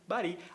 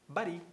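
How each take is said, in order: No difference in how they are said.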